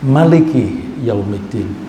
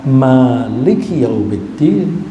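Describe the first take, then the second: First: The first vowel, ma, is kept short. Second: The first vowel, ma, is held long. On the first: God is the king of the Day of Judgment. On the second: God is the owner of the Day of Judgment.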